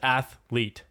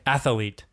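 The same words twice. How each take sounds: First: The word is said with two syllables. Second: The word is said with three syllables. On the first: The speaker calls it right. "That's how you pronounce it" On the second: The speaker calls it wrong. "what did people say?"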